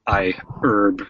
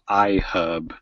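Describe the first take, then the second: First: The name is said the American way. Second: The name is said in a non-American way.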